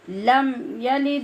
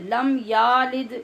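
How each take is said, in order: First: The vowel after the y is short. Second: The vowel after the y is drawn out long. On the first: The speaker calls it right. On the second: The speaker calls it wrong.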